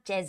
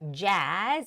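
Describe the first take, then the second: First: The vowel is said short. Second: The vowel is said long. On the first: The speaker calls it wrong. "not jazz" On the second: The speaker calls it right. "It's a long A vowel sound"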